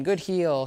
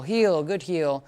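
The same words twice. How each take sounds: First: Said in the usual way. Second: Slow, drawn marker words; slow praise to the dog. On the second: Shown as a demonstration. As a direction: stretch each word out slowly. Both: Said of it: "using a lot more healing".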